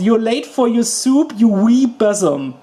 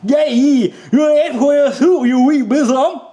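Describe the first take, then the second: First: It is said plainly, in the speaker's voice. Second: It is said in his odd, hard accent.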